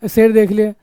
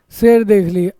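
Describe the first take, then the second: No difference in how they are said.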